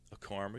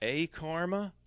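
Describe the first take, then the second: First: The A runs into the rest, unstressed. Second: The A is stressed and set apart. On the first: "I say it's all one word" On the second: "I know some people say A"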